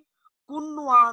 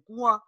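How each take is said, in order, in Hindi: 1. 'न' की आवाज़ साफ़ और पूरी तरह बोली जाती है। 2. 'न' की आवाज़ नाक से निकलती है। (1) "इसको कोई भी कुन्नुआ नहीं पढ़ता" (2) "ये नून की आवाज तो आ रही है नाक में"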